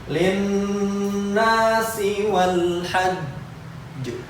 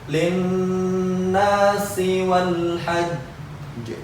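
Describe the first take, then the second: Both takes have the same delivery.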